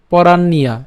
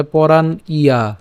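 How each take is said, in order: First: "পরাণ্যা" said as one word, with the য-ফলা gliding straight into the আ; "পরাণ্যা" run together in one breath; joined syllables. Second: "পরাণ ইয়া" said as two parts, pronouncing "পরাণ" and then "ইয়া" separately; "পরাণ ইয়া" spelled out piece by piece; split syllables. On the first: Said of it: "একসাথে উচ্চারণ করলে পরাণ্যা". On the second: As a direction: break "পরাণ ইয়া" apart at the join. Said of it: "তারপরে জফলা এবং আকার আছে". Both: Shown as a demonstration.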